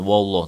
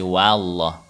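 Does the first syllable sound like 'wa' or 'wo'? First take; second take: wo; wa. First: The first vowel is rounded, like 'wo'. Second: The first vowel is open and unrounded, like 'wa'. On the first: The speaker calls it wrong. "bukan wo, bukan wallah" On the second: The speaker calls it right. "dibaca wa ya ... tapi wallah"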